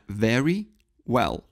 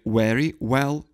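First: The two words start with different sounds. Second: Both words start with the same sound. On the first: The speaker calls it right. "это very well. В выражении very well начальные звуки разные" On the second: The speaker calls it wrong. "не"

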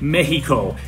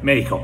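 First: The h-like sound for the x is strong. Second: The h-like sound for the x is light. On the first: The speaker calls it wrong. "that's a little bit over-accented" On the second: The speaker calls it right. "It's more like"

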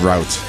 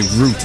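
First: The word is pronounced a non-British way. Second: The word is pronounced the British way. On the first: "instead of route" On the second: "If you want to be so British, Justin, you could say route"

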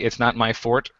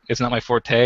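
First: Forte is said as one syllable, like fort. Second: Forte is said as two syllables. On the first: It follows the dictionary's primary pronunciation. "the primary pronunciation was fort" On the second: It follows the pronunciation most people expect. "so I have to say it's not my forte"

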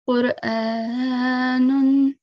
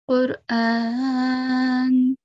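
First: The word ends with a full 'un' syllable. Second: The word stops on the final 'n'. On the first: The speaker calls it wrong. "instead of saying Qur'anun" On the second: The speaker calls it right. "we do waqf and we do it the right way"

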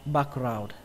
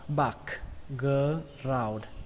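First: The word is said quickly. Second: The word is said at a normal pace.

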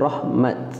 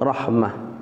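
First: The word ends with a t sound. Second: The word ends with an h sound. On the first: This is a pausal form some scholars also allow. "sebahagian kata boleh juga sebut rahmat" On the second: This is the more eloquent way to pause on it. "Jadi yang afsah rahmah"

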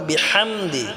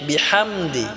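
Both takes have the same delivery.

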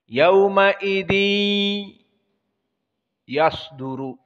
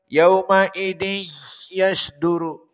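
First: The nasal sound resonates through the nose. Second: The nose is pinched, so nasality is blocked. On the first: The speaker calls it right. "masuk hidung" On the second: The speaker calls it wrong. "Kita tutup hidung"

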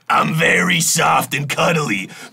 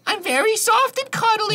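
First: It is said in a deep man's voice. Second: It is said in a normal voice.

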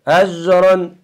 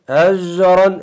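Both takes have the same delivery.

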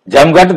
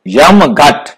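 First: The word begins with a 'j' sound. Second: The word begins with a 'y' sound. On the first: "यम को भी जम बोल देते हैं" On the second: "ये जम की जगह यम कर देंगे तो इसको समझ सकेंगे"

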